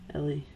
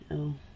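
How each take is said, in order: First: The name is said with two syllables. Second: The name is said with one syllable. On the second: "I'm just gonna go with L"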